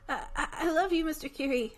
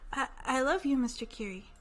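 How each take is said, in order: First: It is said louder. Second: It is mumbled quietly.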